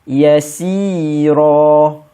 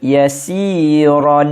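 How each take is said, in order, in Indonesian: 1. Kata ini berakhir dengan vokal panjang. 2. Kata ini berakhir dengan bunyi n. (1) "tapi ada alif di belakang" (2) "selalu kita baca yasiron"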